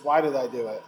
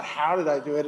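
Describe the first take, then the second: First: Why stressed with a falling end. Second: Did leaned on, the wrong question; stress on did. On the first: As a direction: hit the word "Why" in "Why did I do it?". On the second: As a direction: stress the word "did" in "How did I do it?". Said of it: "And it's not". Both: Shown as a demonstration.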